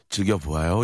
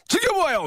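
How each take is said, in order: First: It is said calmly, like late-night radio. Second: It is said lively, with more energy.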